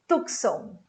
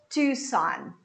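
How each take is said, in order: First: The middle C sound is pronounced. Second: The middle C sound is silent. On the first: The speaker calls it wrong. "Estamos acostumados com o carro" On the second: The speaker calls it right. "in English, Tucson. Você não vai pronunciar esse K, esse C"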